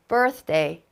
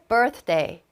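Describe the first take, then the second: The two takes are said the same way.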